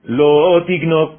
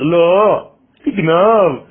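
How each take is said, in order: First: The two words run together as one phrase. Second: There is a break after the first word. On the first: Stealing is forbidden. The speaker calls it right. "au lieu de dire ne vole pas" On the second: Stealing is commanded. The speaker calls it wrong. "il te dit mais pas du tout, vole"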